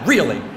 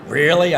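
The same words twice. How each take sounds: First: It sounds encouraging and approving. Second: It sounds doubtful and questioning.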